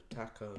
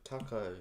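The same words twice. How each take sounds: First: "taco" as TACK-oh; comparing pronunciations. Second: "Taco" as TAH-koh; comparing pronunciations. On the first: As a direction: say "taco" with the vowel of cat. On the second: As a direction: open the first vowel of "Taco" to "ah". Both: Shown as a demonstration. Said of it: "I don't know how to pronounce them".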